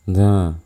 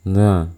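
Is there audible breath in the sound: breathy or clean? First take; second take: breathy; breathy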